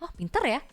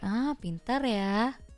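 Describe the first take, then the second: First: The sarcasm is subtle and hard to hear. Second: The sarcasm is obvious and clearly heard.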